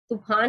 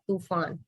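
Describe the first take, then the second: First: The middle consonant is an aspirated 'ph' sound. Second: The middle consonant is an 'f' sound. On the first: The speaker calls it wrong. "तूफान नहीं होता" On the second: The speaker calls it right. "क्या होता है तूफान। ... फ के नीचे नुक्ता लग गया"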